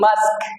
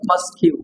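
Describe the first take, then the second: First: The word is one syllable ending in 'sk'. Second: The word ends with an extra 'kyoo' syllable. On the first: The speaker calls it right. "আসলে সঠিক ও উচ্চারণ হবে আ, মাস্ক। এমটা একটু চাপ দিয়ে হবে" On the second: The speaker calls it wrong. "এটা হচ্ছে মাস্কিউ বলে অনেকে"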